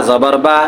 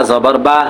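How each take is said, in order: The two takes are said the same way.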